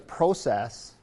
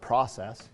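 First: It is said in a non-American way. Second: It is said in an American way.

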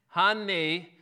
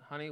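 First: It is said very loud, slow and clipped. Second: It is said at normal conversational volume. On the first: "we tend to get louder, slower, and a little more staccato, right?" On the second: "in a normal conversation tone"

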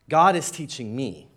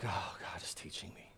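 First: It is said plainly, without a sigh. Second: It is said with a sigh.

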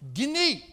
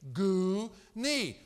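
First: The first syllable sounds like 'gih'. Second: The first syllable sounds like 'goo'. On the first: The speaker calls it right. "no, Wayne, no" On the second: The speaker calls it wrong. "how would you pronounce G-U-N-E?"

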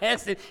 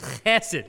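First: The first sound is plain, not from the throat. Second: The first sound is rasped in the back of the throat. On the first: The speaker calls it wrong. "It's not chesed" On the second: The speaker calls it right. "You got to say it like there's something in the back of your throat"

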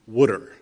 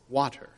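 First: It is said in a thick Philly accent. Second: It is said in a standard accent.

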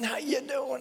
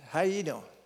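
First: The greeting sounds lively and enthusiastic. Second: The greeting sounds flat and unenthusiastic.

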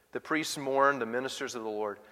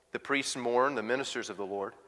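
Both takes have the same delivery.

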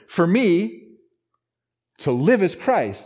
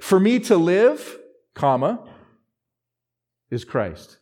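First: There is a pause after 'me'. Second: There is a pause after 'live'.

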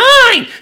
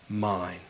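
First: It is said in a whiny, childish way. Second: It is said in a calm, warm, authoritative way. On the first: A small child is grabbing something for himself. The speaker calls it wrong. "he's not like some two-year-old sibling. He's like" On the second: He claims you with authority and love. The speaker calls it right. "with all authority and all love and all grace"

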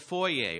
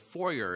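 First: Foyer is pronounced the non-American way. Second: Foyer is pronounced the American way.

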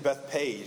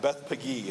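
First: The name ends with the sound 'page'. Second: The name ends with the sound 'peggy'. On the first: The speaker calls it wrong. "apparently I've been saying Beth Page, and it's not Beth Page" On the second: The speaker calls it right. "it's like Beth Peggy or something like that"

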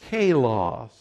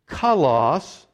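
First: The word is pronounced in an anglicized way. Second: The word is pronounced the Greek way. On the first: The speaker calls it wrong. "That's not the way the Greeks pronounce it, but that's anglicized" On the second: The speaker calls it right. "the Greek here is kalos"

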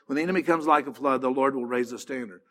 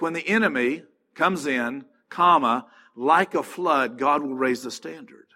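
First: It runs on with no pause before 'like a flood'. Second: There is a break after 'comes in'.

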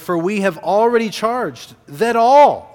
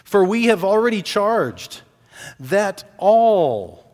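First: The word all is strongly emphasized. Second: The word all gets no special emphasis.

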